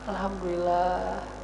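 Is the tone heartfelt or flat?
heartfelt. It is said with deep, heartfelt feeling. The speaker truly feels grateful. The speaker calls it right. "alhamdulillah dengan hati"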